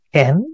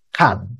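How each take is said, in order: First: It is pronounced in the Masoretic reading tradition. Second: It is pronounced in the Samaritan reading tradition. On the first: "di Masoretic pakai" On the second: "di Samaria punya"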